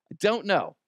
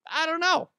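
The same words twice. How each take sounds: First: Said in the usual way. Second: Much higher squeaky take; mock bewilderment. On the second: Unsure about the bodyguard's career, a high squeaky bafflement.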